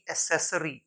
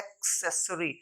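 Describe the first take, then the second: First: एक्सेसरी said "e-SESS-ree", K dropped; no K sound in एक्सेसरी; wrong pronunciation. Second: एक्सेसरी said "ek-SESS-ree"; correct pronunciation. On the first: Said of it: "न कि". (एक्सेसरी में क गायब, "असेसरी") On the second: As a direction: sound the K before S in एक्सेसरी. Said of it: "हम पढ़ते हैं". (एक्सेसरी में "क्स" साफ़) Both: Shown as a demonstration.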